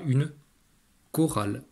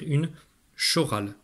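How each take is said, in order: First: The word begins with a k sound. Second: The word begins with a sh sound. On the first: The speaker calls it right. "en traduisant le C et H par le son que" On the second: The speaker calls it wrong. "ton premier réflexe, si tu vois C H, c'est de le traduire par le son ch"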